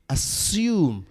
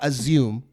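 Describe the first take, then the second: First: The middle consonant is a plain s sound. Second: The middle consonant is not a plain s. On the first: The speaker calls it right. "It's assume with an S" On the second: The speaker calls it wrong. "it's not assume"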